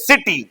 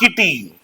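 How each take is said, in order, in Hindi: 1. शब्द की शुरुआत s ध्वनि से होती है। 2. शब्द की शुरुआत k ध्वनि से होती है। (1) "it is city" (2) "We do not pronounce it kitty"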